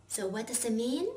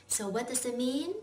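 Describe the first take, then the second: Both takes have the same delivery.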